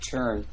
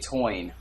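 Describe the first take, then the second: First: It has a standard 'ur' vowel. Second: It has a Yat 'oi' vowel.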